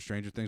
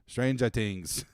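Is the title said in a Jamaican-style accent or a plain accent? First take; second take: plain; Jamaican-style. First: It is said in the speaker's ordinary accent. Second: It is said in a Jamaican-style Rasta accent.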